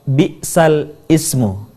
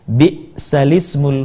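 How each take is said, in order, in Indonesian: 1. Hamzah memisahkan kedua kata itu. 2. Kedua kata menyambung tanpa hamzah. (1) "berasal dari kata bi'sal ismu" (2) "harokat hamzah pada kata al-ismu dipindahkan ke huruf sukun sebelumnya"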